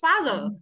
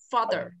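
First: The first syllable is hit very hard and high. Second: The first syllable is only slightly stronger. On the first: The speaker calls it wrong. "không thả mạnh như dấu sắt Việt Nam là father" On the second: The speaker calls it right. "nó chỉ mạnh hơn chút thôi"

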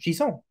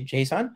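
First: It is pronounced the French way. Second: It is pronounced the English way. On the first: "I quite like the French version" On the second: "as a person who speaks English, I would say JSON"

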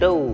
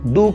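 First: The vowel blends a slight a and u sound. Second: The vowel is a pure, full oo sound. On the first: The speaker calls it right. "हल्का सा अ और उ की sound mix करके बोलने की कोशिश करें" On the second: The speaker calls it wrong. "डू के बजाय"

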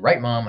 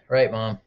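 First: It is said in a neutral, unregretful tone. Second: It is said in a sad, regretful tone. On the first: The speaker calls it wrong. "Maybe I shouldn't have said" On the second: The speaker calls it right. "That's more regretful"

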